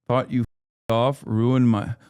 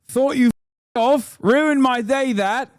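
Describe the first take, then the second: First: Said in the usual way. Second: Much higher, slow, exaggerated Brummie accent; mock Brummie accent, pitched way up and slow. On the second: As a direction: ham up a Birmingham local, drawing the words out high. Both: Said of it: "Look up the Broomy accent".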